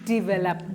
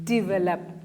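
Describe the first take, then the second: No difference in how they are said.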